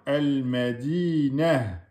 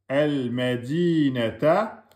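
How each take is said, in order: First: The word ends on na with no ta. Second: The word ends with a final ta syllable. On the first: The word is said at a stop. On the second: The word is said in the flow of speech.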